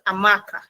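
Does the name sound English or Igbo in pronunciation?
English. It is said like an English name. The speaker calls it wrong. "instead of"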